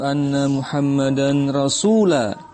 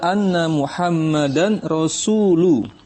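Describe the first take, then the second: First: The last word ends with an a vowel. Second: The last word ends with a u vowel. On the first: The speaker calls it wrong. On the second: The speaker calls it right. "yang benar adalah; rasulnya harus marfu"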